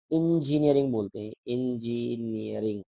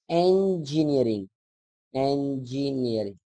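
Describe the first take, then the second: First: इंजीनियरिंग with a short i in the first syllable, in-ji-ni-ya-ring; इंजीनियरिंग the usual way, starting with in; common Hindi pronunciation. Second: इंजीनियरिंग said slowly, starting with an open e as en-ji-ni-ya-ring; teacher slowly models the correct English sound of engineering; correct pronunciation. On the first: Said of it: "आप इस शब्द को बोलते हैं". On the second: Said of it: "right pronunciation". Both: Shown as a demonstration.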